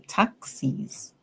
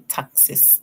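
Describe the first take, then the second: First: The final syllable sounds like 'eez'. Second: The final syllable sounds like 'iz'. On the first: The speaker calls it right. "we're going to say ease" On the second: The speaker calls it wrong. "we do not say taxes"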